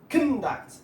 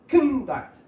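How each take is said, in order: First: The stress is on the first syllable. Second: The same.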